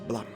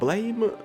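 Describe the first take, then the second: First: The name rhymes with jam. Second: The name rhymes with game. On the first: The speaker calls it right. "the correct pronunciation" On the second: The speaker calls it wrong. "the correct pronunciation is not blame"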